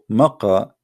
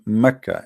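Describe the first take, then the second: First: The middle consonant is a deep q sound. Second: The middle consonant is a plain k sound. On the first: "the letter Qa" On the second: "they pronounce the letter Qa as Ka"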